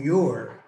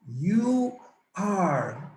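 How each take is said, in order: First: It is said as one contracted word. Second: It is said as two full words. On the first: "The contraction is your" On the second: "the complete form is you are"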